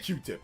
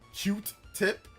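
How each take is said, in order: First: The first syllable ends without a t sound. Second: The first syllable ends with a t sound. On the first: The speaker calls it right. "I say Q-tip" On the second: The speaker calls it wrong. "A lot of people say cute tip"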